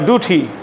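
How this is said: The first syllable is said like doo. This is the American pronunciation. "ডু বলো, তাহলে আমেরিকার উচ্চারণ হবে।"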